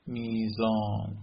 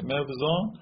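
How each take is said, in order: First: میزان drawn out slowly as mee-zaan; slow mee-zaan, w turned into y; easier y form. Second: موزان said mev-zaan, with the v sounded; mev-zaan, before the change to y; original w form. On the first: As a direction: say میزان with a long ee and no v. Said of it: "این چقدر راحت شد". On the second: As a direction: close the first syllable of موزان on v. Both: Shown as a demonstration.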